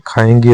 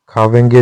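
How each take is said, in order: First: खाएंगे without any v; correct form. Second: खावेंगे with a v glide; wrong form. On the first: Teacher giving the correction, खाएंगे without v. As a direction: say खाएंगे as kha-eng-ge. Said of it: "होता है". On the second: Teacher showing learners the mistake, खावेंगे with v. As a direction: say खावेंगे as kha-veng-ge. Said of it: "नहीं होता". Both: Shown as a demonstration.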